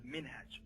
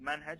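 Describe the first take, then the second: First: The first vowel sounds like 'i'. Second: The first vowel sounds like 'a'. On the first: "as well as minhaj" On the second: "It is pronounced manhaj"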